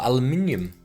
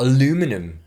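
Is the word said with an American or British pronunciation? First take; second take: British; American. First: The word is said with a British pronunciation. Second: The word is said with an American pronunciation. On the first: The speaker calls it right. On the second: The speaker calls it wrong.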